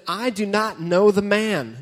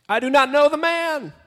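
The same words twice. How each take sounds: First: Said in the usual way. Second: Higher, louder, desperate cry; exclaimed denial. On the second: Acted. Peter shouting at the crowd, loud desperate denial. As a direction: shout the denial like a cornered man. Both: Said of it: "There's an exclamation point there".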